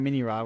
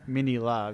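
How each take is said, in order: First: The name is said with an R sound. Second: The name is said with an L sound. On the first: The speaker calls it wrong. "they call him Mini Ra" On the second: The speaker calls it right. "you should be calling him Mini La"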